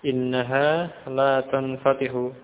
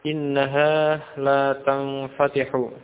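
No difference in how they are said.

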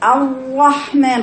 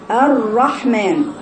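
First: The r is pressed tight and cut off. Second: The r is lightly trilled with one tap. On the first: The speaker calls it wrong. "تقولك الرحمن، خطأ" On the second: The speaker calls it right. "هي الرحمن فيها تكرير واحدة"

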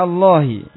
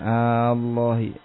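First: The opening vowel is kept short. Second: The opening vowel is drawn out long.

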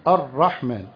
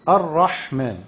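No difference in how they are said.

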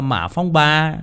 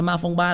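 First: The name is read with Vietnamese tones. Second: The name is read in a Japanese-style reading. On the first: This is how Vietnamese people should read it. "Mình Việt Nam mình phải đọc theo kiểu tiếng Việt" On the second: This is how the Japanese read it. "là của Nhật Bản họ đọc"

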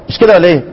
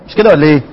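The two takes are said the same way.

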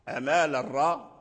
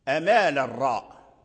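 The two takes are said the same way.

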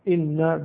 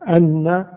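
First: The word starts with an 'i' vowel. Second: The word starts with an 'a' vowel. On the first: What follows gives the reason the creature comes out. "إن بكسر الهمزة" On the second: What follows is the words the creature speaks. "فتح الهمزة أن"

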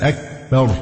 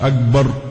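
First: The k sound has an audible breath release. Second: The k sound has no breath release. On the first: The speaker calls it right. "الكف فيها همس" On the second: The speaker calls it wrong. "مش أكبر"

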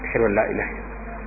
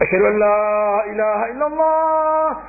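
First: The phrase is said in a quiet voice. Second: The phrase is said in a loud voice. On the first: "dia menyuarakan suara yang kecil sebelumnya" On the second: "kemudian dia mengucapkannya secara lantang"

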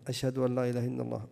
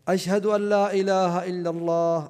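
First: The phrase is said in a low, quiet voice. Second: The phrase is said in a raised, loud voice. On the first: "يقول التشهدين بصوت منخفض" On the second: "ثم يعود فيرفعهما هكذا"

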